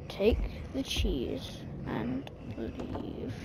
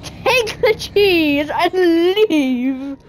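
First: Soft, slow and drawn out; slow quiet coaxing. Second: "Take the cheese and leave" very slow, each word stretched; slow firm plea. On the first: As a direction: murmur it slowly, willing them to go. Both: Real, not acted. Coaxing chef, slow repeat.

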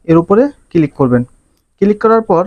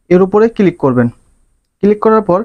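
No difference in how they are said.

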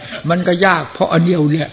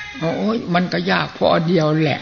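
First: Said in the usual way. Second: Chuckling through the retold answer; laughing reply. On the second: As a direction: answer with a light laugh, amused.

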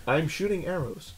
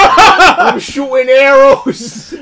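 First: Soft, lower, deadpan archer line; underplay the hero boast; quiet mock hero. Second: Slow, loud, laughing hero voice; laughing mock hero. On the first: Imitating Green Arrow again, soft deadpan archer voice. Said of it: "But look". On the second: Mocking Green Arrow, slow loud laughing hero voice. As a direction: ham up an archer hero through laughter. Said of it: "Hey, I'm walking in".

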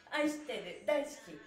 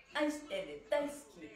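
No difference in how they are said.

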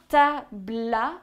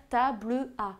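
First: Tabla in two syllables, the e of table dropped; e muet élidé. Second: Table à in three syllables, the e of table sounded; e muet pronounced. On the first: (« tabla » en deux syllabes, e muet non prononcé) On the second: (« table à » en trois syllabes, e prononcé) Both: Shown as a demonstration. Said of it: "et non, comme certains auraient pu le faire".

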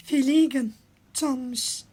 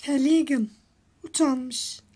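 Both takes have the same delivery.

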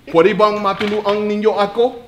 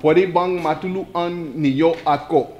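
First: Laughing through Pwede bang matulungan ninyo ako; Tagalog phrase. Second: Pwede bang matulungan ninyo ako slowly, syllable by syllable; slow it down for the class. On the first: Teacher demos the Tagalog phrase to class, laughing. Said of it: "you gotta say it slow". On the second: Teacher repeats the Tagalog phrase for students, slowly. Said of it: "Okay, I'll say it slow". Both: Shown as a demonstration.

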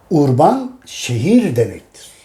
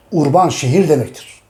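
First: Each word drawn out slowly; slow, deliberate. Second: Said in the usual way. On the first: Shown as a demonstration. Teacher repeating for students to note down, slow. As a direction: spell out the meaning very slowly for the class.

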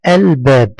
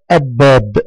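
First: "الباب" as al-bab with a clear, held l; correct pronounced lam. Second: "الباب" as ab-bab, l dropped and b doubled; wrong silent lam. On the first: Teacher gives the right form, clear l in "الباب". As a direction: sound the l fully before the b in "الباب". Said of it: "ولا بد أن تنطق". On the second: Teacher shows pupils the mistake, l dropped in "الباب". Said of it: "إذا قلت كلمة الباب خطأ". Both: Shown as a demonstration.

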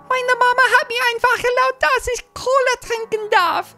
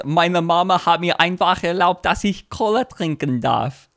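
First: Put-on very high-pitched little German kid; tiny German voice. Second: Said in the usual way. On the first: Shown as a demonstration. Kid whose mom allowed cola, tiny German voice. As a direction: pipe it up like a tiny German child. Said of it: "in the tiny German voice".

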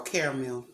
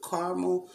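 First: Caramel as "CARE-mel"; alternative pronunciation. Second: Caramel as "CAR-muh", two syllables; trying a pronunciation. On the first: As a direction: open caramel with "care" instead of "car". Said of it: "or caramel". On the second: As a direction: sound out caramel with an open "ar". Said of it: "Is it caramel, caramel, caramel, or caramel". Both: Shown as a demonstration.

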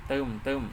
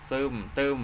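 No difference in how they are said.

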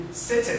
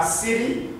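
First: "city" British-style with a true T; English accent, crisp T in "city". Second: "city" with the T softened to a quick D; American flapped T. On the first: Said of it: "un anglais dire city". (« city » à l'anglaise, T bien prononcé) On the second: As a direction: tap the middle of "city" like "siddy". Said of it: "Le T n'a plus sa valeur de T". (« city » à l'américaine, T presque D) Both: Shown as a demonstration.

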